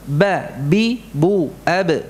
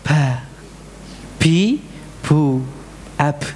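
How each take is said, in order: First: The syllables are strong, with held voice. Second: The syllables are breathy, with air escaping. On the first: The speaker calls it right. "diucapkan dengan syiddah, dengan kuat" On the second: The speaker calls it wrong. "terbalik sifatnya menjadi hams"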